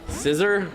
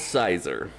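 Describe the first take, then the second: First: The first vowel is a short i sound. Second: The first vowel is a long i sound. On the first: "I think it's a short I sound" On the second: "I call it Sizer"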